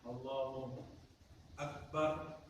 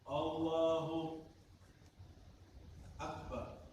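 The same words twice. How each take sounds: First: There is a short pause between the words. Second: There is a long pause between the words. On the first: The opening phrase is still valid. The speaker calls it right. "sah karena berhentinya sebentar" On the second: The opening phrase is invalid and must be repeated. The speaker calls it wrong. "Berhentinya terlalu lama"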